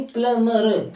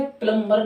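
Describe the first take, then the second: First: प्लम्बर as plum-mer; silent B. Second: प्लम्बर as plum-ber; sounded B. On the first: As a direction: leave the B out of प्लम्बर. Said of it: "यानी बी silent". (प्लम्बर बिना ब के, प्लमर) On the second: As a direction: keep the B audible in प्लम्बर. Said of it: "प्लम्बर नहीं". (प्लम्बर में ब के साथ) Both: Shown as a demonstration.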